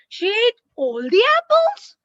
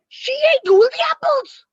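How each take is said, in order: First: It is said as a questioning sentence. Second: It is said with lively, excited energy. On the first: The speaker asks whether it is true. "Question mark" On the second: The fact is surprising or exciting. "With all excitement"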